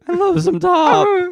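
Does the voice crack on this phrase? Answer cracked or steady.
cracked. The voice cracks partway through the phrase.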